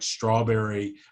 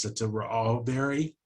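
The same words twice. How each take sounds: First: The opening consonants are said together as a cluster. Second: Short vowels are inserted between the opening consonants.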